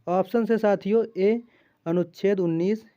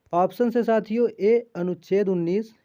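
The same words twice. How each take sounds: The two takes are said the same way.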